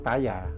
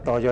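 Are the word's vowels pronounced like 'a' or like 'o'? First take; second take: a; o. First: Both vowels are pronounced as an 'a' sound. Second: Both vowels are pronounced as an 'o' sound. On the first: This is the Old Javanese reading. "Jawa kuno itu taya" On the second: This is the Central and East Javanese reading. "dibaca dengan uh, lidah Jawa Tengah dan Jawa Timur"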